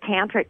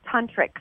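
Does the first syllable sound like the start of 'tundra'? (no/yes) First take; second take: no; yes. First: The first syllable does not sound like 'tun'. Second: The first syllable sounds like 'tun' in tundra. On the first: The speaker calls it wrong. "I called it tantric sex" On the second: The speaker calls it right. "but it's tantric sex, like tundra"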